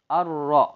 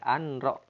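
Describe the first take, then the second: First: The n merges fully into the r sound. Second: A separate n sound is heard before the r. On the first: The speaker calls it right. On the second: The speaker calls it wrong.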